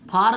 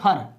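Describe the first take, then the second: First: The vowel is full and long. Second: The vowel is short and reduced. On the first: The speaker calls it wrong. "फार नहीं पढ़ेंगे, गलत हो जाएगा" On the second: The speaker calls it right. "इसको पढ़ेंगे फर"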